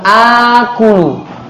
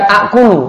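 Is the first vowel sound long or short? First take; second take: long; short. First: The first vowel is long. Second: The first vowel is short. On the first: The speaker calls it right. "namun aqulu. A-nya jadi panjang" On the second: The speaker calls it wrong. "bukan aqulu"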